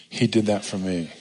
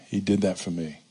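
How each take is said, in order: The two takes are said the same way.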